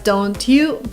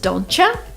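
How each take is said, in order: First: The t and y sounds stay separate. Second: The t and y merge into ch.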